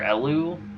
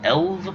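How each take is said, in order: First: The name ends with a u vowel sound. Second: The name ends with a v sound. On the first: It is the speaker's usual reading. "I've normally pronounced it Elu" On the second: It is read the way German would read it. "if it were German, I mean, I would just call it Elv"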